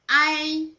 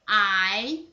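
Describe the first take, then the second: First: The pitch stays high and level. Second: The pitch rises from mid to high.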